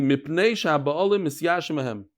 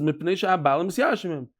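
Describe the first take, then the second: First: Measured reading with "sha'ba'alim" drawn out; slow reading. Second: Said in the usual way. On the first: Shown as a demonstration. Teacher rereading the Mishnah for the class, slowly. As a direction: read "Mipnei sha'ba'alim misyashim hem" slowly, word by word. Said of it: "let's read it slowly".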